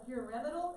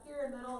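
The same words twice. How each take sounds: First: The word gets its formal, textbook pronunciation. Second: The word gets a quick, everyday pronunciation. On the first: This is the officially correct form. "is how you're technically supposed to say it" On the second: This is how most people actually say it. "is how, how people say it, typically fast"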